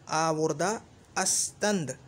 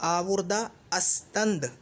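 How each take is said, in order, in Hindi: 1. यह वाक्यांश पूरा बोला जाता है, 'ast' के साथ। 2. यह वाक्यांश पूरा बोला जाता है, 'ast' के साथ।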